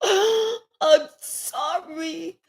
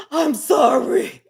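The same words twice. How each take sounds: First: Sobbing apology. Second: Gasping apology. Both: Acted. Remorseful King begging forgiveness.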